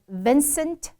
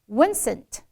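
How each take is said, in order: First: The word begins with a v sound. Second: The word begins with a w sound. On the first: The speaker calls it right. "v and w" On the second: The speaker calls it wrong. "v and w 全部反掉"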